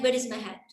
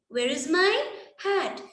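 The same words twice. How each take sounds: First: It is said flatly, like a statement. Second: It is said with a questioning tune. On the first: The speaker calls it wrong. "It doesn't sound like a question" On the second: The speaker calls it right. "That makes a proper question"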